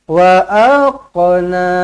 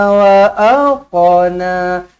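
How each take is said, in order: The two takes are said the same way.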